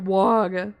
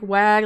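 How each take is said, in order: First: The vowel sounds like the one in 'bog'. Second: The vowel sounds like the one in 'bag'.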